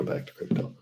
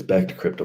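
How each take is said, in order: First: Softer whispered echo; whispered repeat. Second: Said in the usual way. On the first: Real, not acted. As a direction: drop to a whisper to yourself. Repeats phrase, then whispers.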